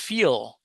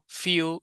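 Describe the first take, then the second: First: The final L sound is clearly pronounced. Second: The final L sound is dropped or weakened. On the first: The speaker calls it right. "You have to say the L" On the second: The speaker calls it wrong. "I was mispronouncing words that ended in L"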